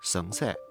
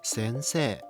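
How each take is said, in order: First: The first vowel is centralized, like a schwa. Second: The first vowel is an open, forward eh. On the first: The speaker calls it wrong. "influenced by the pinyin spelling en" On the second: The speaker calls it right. "slightly opening your mouth and letting the eh sound come forward"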